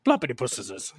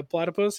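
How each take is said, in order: First: "Plopitypuses" said as plop-ity-puses instead of platypuses; mangled animal name. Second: Said in the usual way. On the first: Retold or imitated. Telling his friend how Creepy Dave mangles "Plopitypuses" with a laugh. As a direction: garble "Plopitypuses" like a silly plural of platypus. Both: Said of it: "he says all the names wrong".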